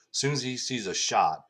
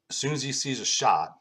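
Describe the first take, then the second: No difference in how they are said.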